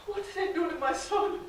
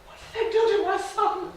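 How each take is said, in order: First: Softer, broken repeat of the question; hushed grief. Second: A raised, stricken plea; anguished question. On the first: Mother watching her son run away, hushed grief. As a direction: let it sink into quiet despair. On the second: Mother seeing her starved son, anguished and raised. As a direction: cry it out in disbelief. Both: Acted.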